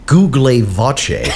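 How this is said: It is said in an Italian accent.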